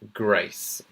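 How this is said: The vowel is the received pronunciation sound. The speaker calls it right. "you want to pronounce it as A in the in received pronunciation"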